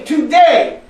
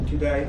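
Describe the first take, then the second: First: Strong declaration. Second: "Today" said low and soft, with no conviction; limp, half-hearted. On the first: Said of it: "Repeat after me". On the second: Showing the audience how not to say it, limp and soft. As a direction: mumble "Today" as if you don't mean it. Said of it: "If you're going to say it like this". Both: Shown as a demonstration.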